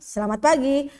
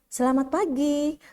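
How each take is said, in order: First: It sounds curt and irritated. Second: It sounds soft, polite and friendly. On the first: The speaker seems annoyed. The speaker calls it wrong. "dari intonasinya aja kan udah ketahuan ya kita kayaknya kayak judes-judes" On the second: The speaker seems pleasant and courteous. The speaker calls it right. "dari intonasinya saja kita bisa dengar nih orang menyenangkan ya, kayaknya sopan banget nih ngomongnya, lembut suaranya"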